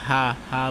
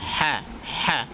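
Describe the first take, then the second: First: The h sound is plain and soft. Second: The h sound is harsh and strained. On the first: The speaker calls it wrong. "ভুল করে হা হা বলি" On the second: The speaker calls it right. "বাতাসটা চালু থাকবে কিন্তু একটু আওয়াজটা একটু কঠিন হবে"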